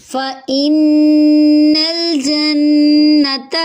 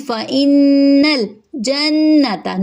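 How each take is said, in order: First: فَإِنَّ with a short fa and nasal ghunna on the doubled nun; tajweed recitation. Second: فَإِنَّ with a nasal ghunna on the doubled nun; tajweed recitation. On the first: Teacher reciting a verse for students, slow and loud. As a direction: recite فَإِنَّ الْجَنَّةَ slowly and loudly with the nun held and nasal. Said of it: "فا حرکت لمبی نہیں ہوگی، حمزہ کو نون سے ملائیں گے". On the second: Teacher repeating the verse, slow and careful. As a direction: say فَإِنَّ الْجَنَّةَ slowly, the short vowels kept short. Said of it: "نون پہ تشدید ہے غنہ کریں گے".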